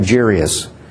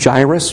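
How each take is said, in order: First: The i sound comes after the r. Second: The i sound comes before the r. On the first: The speaker calls it wrong. "I put the I after the R, and I always called the guy Jairus" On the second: The speaker calls it right. "I think the correct pronunciation is Jairus based on the spelling"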